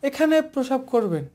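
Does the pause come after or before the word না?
before. The pause comes right before the word না. Not urinating here brings a fine. The speaker calls it wrong. "ব্রেকটা দিল এখানে"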